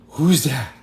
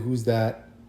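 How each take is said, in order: First: It is said in an excited, alarmed voice. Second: It is said in a plain, ordinary voice.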